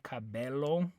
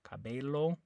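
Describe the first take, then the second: No difference in how they are said.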